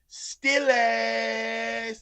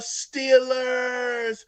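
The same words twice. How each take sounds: First: It is said in a put-on, flamboyant voice. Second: It is said in a plain, regular voice.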